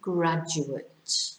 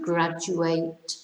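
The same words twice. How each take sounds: First: It is pronounced as the noun form. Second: It is pronounced as the verb form. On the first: It names a person who finished studies. "a graduate" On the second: It means to finish a course of study. "to graduate"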